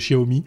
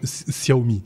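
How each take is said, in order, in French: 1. Le mot commence par un autre son que s. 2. Le mot commence par un s simple. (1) "tu avais dit, Xavier, il n'y a pas tellement longtemps qu'on disait Xiaomi. Eh ben, t'as tout faux" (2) "on dit un S. C'est un S. C'est comme Xiaomi"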